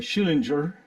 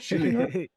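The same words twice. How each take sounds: First: The name is said the American way. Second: The name is said the German-Russian way. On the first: "in the U S you always say Schillinger" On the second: "I pronounce it the German Russian way"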